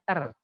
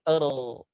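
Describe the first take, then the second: First: The r is light and thin. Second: The r is heavy and thick. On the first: The speaker calls it wrong. "bukan r" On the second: The speaker calls it right. "supaya tebal lidahnya begini"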